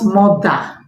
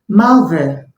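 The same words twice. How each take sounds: First: The unstressed vowel is a full vowel. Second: The unstressed vowel is a weak schwa. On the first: The speaker calls it wrong. "not mother" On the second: The speaker calls it right. "the schwa sound"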